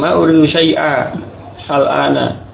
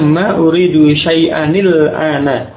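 First: The words are separated, with no final n. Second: The words are joined with a linking nil. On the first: "Ini juga boleh" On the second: "Ini ketika membaca dengan bersambung ya"

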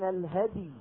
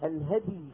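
The two takes are said the same way.

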